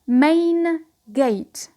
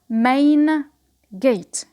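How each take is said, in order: The two takes are said the same way.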